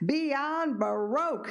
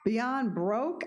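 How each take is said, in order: First: The last word is carefully said in two syllables. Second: The last word is squeezed into one syllable. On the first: The name is corrected to its proper form. The speaker calls it right. "she enunciated in perfect diction" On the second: The name was misheard as something about money. The speaker calls it wrong. "I asked"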